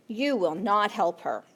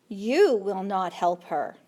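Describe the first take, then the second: The two takes are said the same way.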